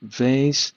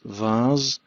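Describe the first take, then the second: First: It is said with an American pronunciation. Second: It is said with a British pronunciation. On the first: "in American English it is" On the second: "in British English it's"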